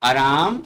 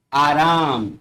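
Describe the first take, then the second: First: आराम with short first a, rising; incorrect form. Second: आराम with long aa, falling; corrected form. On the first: Teacher reads the incorrect आराम with short a. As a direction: say आराम as "a-raam?". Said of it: "बाईं तरफ अशुद्ध शब्द". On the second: Teacher models correct आराम with long opening aa. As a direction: say आराम as "aa-raam". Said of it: "उनको शुद्ध करके लिखा गया". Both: Shown as a demonstration.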